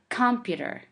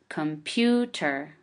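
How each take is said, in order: First: The stress is not on the second syllable. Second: The stress is on the second syllable. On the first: The speaker calls it wrong. "we don't say computer" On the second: The speaker calls it right. "We we put a stress on the pew sound"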